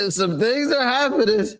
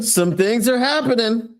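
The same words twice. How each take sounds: First: Laughing. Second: Excited. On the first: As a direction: repeat it laughing, higher. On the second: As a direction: hype it up, lean on are. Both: Real, not acted.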